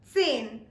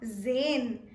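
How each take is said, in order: First: The word starts with a clear ts sound. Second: The word starts with a plain z sound. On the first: The speaker calls it right. "emphasize on the tiny T" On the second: The speaker calls it wrong. "Zain will be wrong"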